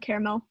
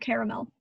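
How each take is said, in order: First: The middle vowel is dropped, giving two syllables. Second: The middle vowel is pronounced, giving three syllables. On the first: "I never say the second A. I say caramel" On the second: "Never the second A. Never caramel"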